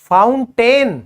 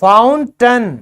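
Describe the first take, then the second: First: The second syllable has a full 'ay' vowel. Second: The second syllable has a weak, reduced vowel. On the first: The speaker calls it wrong. "बिल्कुल गलत" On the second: The speaker calls it right. "ये सही pronunciation है"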